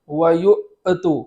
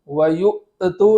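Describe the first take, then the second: Both takes have the same delivery.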